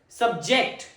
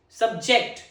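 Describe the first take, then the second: No difference in how they are said.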